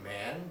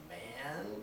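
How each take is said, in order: First: The pitch rises on the word like a question. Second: The word is said in a coaxing, pleading way. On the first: The speaker is addressing someone directly. "It goes up like that" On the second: The speaker is trying to persuade someone. "we are persuading someone"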